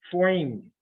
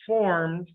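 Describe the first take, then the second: First: "formed" as "foimed", New York style; New York accent. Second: Said in the usual way. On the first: Pretend. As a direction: put a touch of old New York on "formed". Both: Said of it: "that's a New York accent".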